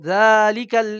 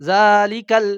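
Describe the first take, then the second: No difference in how they are said.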